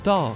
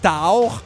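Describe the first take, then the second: First: The vowel keeps one steady quality throughout. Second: The vowel changes quality as it is held. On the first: The speaker calls it right. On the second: The speaker calls it wrong.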